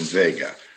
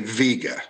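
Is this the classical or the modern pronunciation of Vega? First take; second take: classical; modern. First: Vega is said the old classical way. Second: Vega is said the common modern way. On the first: This is the old pronunciation from long ago. "rather than Vega" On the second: This is how most people say it today. "Most people today say Vega"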